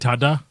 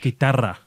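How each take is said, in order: First: The middle consonant is a D sound. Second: The middle consonant is a rolled R.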